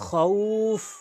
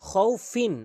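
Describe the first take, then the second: First: The word stops on f, middle vowel lengthened. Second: The word is said in full, ending in -in. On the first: "এখন আমি থামব" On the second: "আমি বানান করেছি, থামি নাই"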